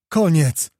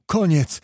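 First: Louder, higher final cry; forceful falling exclamation; emphatic repeat. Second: Higher exclamation, held in check; contained urgent cry; final announcement. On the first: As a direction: shout it out as the final word. Lookout repeats battle is over. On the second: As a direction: call it over, firmly. Lookout announces battle is over. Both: A narrator's reading.

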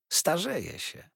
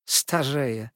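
First: Said in the usual way. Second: Put-on young wife echoing her aunt in surprise, exclaiming; astonished exclamation. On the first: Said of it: "zauważyła siedząca przy niej". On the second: A narrator's reading. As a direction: echo the word higher and louder, amazed. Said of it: "zawołała Dora".

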